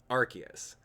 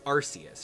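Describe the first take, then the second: First: The first syllable does not sound like arse. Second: The first syllable sounds like the word arse. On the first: This is the pronunciation adopted later. The speaker calls it right. "let's just pronounce it Arceus" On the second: This is the older pronunciation. The speaker calls it wrong. "the name Arceus has the word arse in it"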